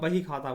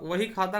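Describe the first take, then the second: First: The first word begins with a b sound. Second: The first word begins with a v sound. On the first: "वा के स्थान पे बा का प्रयोग" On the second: "वा के स्थान पे बा का प्रयोग"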